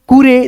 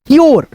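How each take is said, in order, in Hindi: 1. इसे दो अक्षरों में कहा जाता है, koo-reh। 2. इसे एक अक्षर में कहा जाता है, kyoor। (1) "तो ये गलत हो जाएगा" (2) "तो यहाँ पे पढ़ेंगे"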